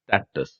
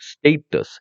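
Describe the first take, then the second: First: സ്റ്റാറ്റസ് said the American way, first vowel as in "stat"; American pronunciation. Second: സ്റ്റേറ്റസ് said the British way, first vowel as in "state"; British pronunciation. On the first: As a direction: say സ്റ്റാറ്റസ് with a short flat "a", sta-tus. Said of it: "American ഇംഗ്ലീഷിൽ പറയുന്നത്". (American ഉച്ചാരണത്തിൽ സ്റ്റാറ്റസ്) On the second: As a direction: say സ്റ്റേറ്റസ് with a long "ay" sound, stay-tus. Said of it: "British pronunciation ആണ്". (British ഉച്ചാരണത്തിൽ സ്റ്റേറ്റസ്) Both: Shown as a demonstration.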